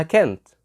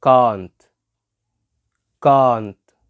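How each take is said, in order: First: "can't" as "kaent", front vowel of "cat"; regional British can't. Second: "can't" as "caahnt", long back "ah"; "can't" with the vowel of "father"; British can't. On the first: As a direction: say "can't" without the long "ah". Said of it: "لهجات كمان في البريتش بتنطقها". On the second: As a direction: model "can't" loudly, vowel held. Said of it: "وهي بريتش بتقولها إيه". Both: Shown as a demonstration.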